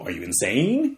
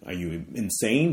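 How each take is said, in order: First: It is said with a questioning tune. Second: It is said flatly, like a statement.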